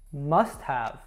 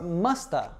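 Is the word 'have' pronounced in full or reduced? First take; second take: full; reduced. First: The word have is pronounced in full. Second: Have is reduced to a short uh sound. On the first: The speaker calls it wrong. "That's wrong too" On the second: The speaker calls it right. "I would say ... musta"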